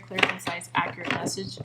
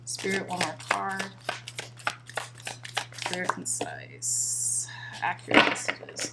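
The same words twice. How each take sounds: First: Said in the usual way. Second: Soft unvoiced whisper to Spirit. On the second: Reader whispering her request to Spirit for a card, whispered. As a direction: breathe the words out like a secret to Spirit.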